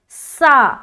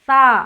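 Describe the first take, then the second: First: The consonant has a whistling hiss like s. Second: The consonant is soft, without a whistling hiss. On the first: The speaker calls it wrong. "तो गलत हो गया। ... ये सीन से तब्दील हो गया" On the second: The speaker calls it right. "नरमी तो होगा, साथ ही साथ बगैर सीटी के निकलेगा"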